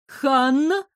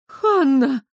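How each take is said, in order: First: Higher, anxious call of a name; agitated call. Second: Higher, sharp cry of shock; shocked gasp. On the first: Elisa finds Hanna up a tree, agitated. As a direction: call out in worry. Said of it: "услышала взволнованный голос Элизы". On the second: Elisa sees the injured man, shocked. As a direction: gasp the name, appalled. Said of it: "потрясённо ахнула Элиза". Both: A narrator's reading.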